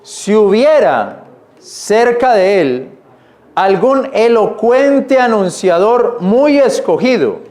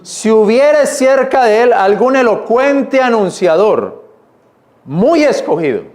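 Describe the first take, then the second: First: Slowed, deliberate reread of the verse. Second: Slowed, weighty reading of the verse; slow emphatic reread. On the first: Preacher rereads the verse for his church, slow and deliberate. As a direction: lean on every word as you reread. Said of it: "vuelvo a leerlo, mire". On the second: Preacher rereads the verse again, slow and weighty. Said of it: "Mira cómo dice ahí nuevamente". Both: Shown as a demonstration.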